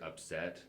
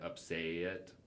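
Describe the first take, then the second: First: The vowels are short and plain. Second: The vowels are drawn out long. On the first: "instead of the word upset" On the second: "How people pronounce their vowels very, very elongated"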